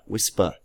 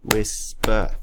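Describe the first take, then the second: First: Said in the usual way. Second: "whisper" as two separated beats, whis... per; split into syllables. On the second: Shown as a demonstration. Teacher counts syllables for pupils, "whisper" pulled apart in two. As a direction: pause clearly between the syllables of "whisper". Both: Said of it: "break these words up into syllables".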